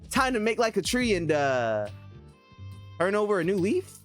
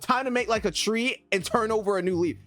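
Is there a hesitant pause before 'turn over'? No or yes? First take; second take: yes; no. First: It hesitates with a pause before 'turn'. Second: It flows smoothly without a pause before 'turn'.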